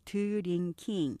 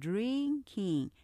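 First: Three even syllables with no clear stress. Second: Two syllables with the first one stressed. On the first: The speaker calls it wrong. "우리가 보통 드링킹 이렇게 삼음절로 발음하지만" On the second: The speaker calls it right. "앞에 강조하면서 drinking 강약하시면 되고요"

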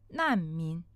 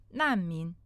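First: It is said with a falling Chinese tone. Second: The same.

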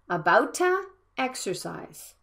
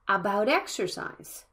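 First: An extra vowel sound comes between the words. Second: The words join with no added vowel sound. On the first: The speaker calls it wrong. "not about-a exercise" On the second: The speaker calls it right. "About exercise, not about-a exercise"

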